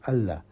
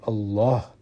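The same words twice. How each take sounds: First: The L sound is light and thin. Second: The L sound is heavy and full. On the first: The word is derived from another word. "we should not be saying it in a heavy pronunciation" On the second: The word is a root word. "Allah is a very heavy pronunciation"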